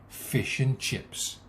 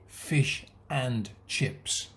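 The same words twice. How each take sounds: First: The word 'and' is weak and unstressed. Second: The word 'and' is said fully and stressed. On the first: The speaker calls it right. "We say fish and chips. ... it's the nouns that are stressed" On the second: The speaker calls it wrong. "We don't say fish and chips"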